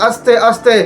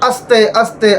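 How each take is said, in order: Both takes have the same delivery.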